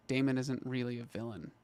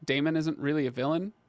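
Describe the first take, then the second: First: "Daemon isn't really a villain." softer, falling at the end; falling restatement. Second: "Daemon isn't really a villain?" rising at the end; disbelieving question. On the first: Streamer repeating a viewer's doubtful comment, quiet falling restatement. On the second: Streamer questioning a viewer's comment about Daemon, disbelieving question. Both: Real, not acted.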